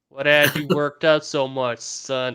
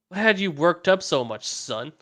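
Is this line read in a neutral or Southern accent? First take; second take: Southern; neutral. First: It is read in a Southern redneck accent. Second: It is read in a neutral accent.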